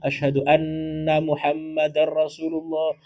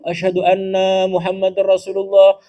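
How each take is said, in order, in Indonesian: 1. Vokal 'na' pendek, dengung nasal ditahan panjang. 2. Vokal 'na' dipanjangkan, dengung nasal pendek. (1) "tolong dipendekkan nanya itu, lamakan dengungnya" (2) "sesungguhnya kami Muhammad utusan Allah"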